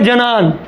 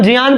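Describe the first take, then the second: First: It begins with a j-n sound. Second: It begins with a j-y sound. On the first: The speaker calls it wrong. "तो इसको हम पढ़े जनान ना" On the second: The speaker calls it right. "जयान पढ़ेंगे"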